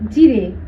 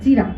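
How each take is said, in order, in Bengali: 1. শব্দটি 'e' স্বরধ্বনি দিয়ে শেষ হয়। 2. শব্দটি 'a' স্বরধ্বনি দিয়ে শেষ হয়।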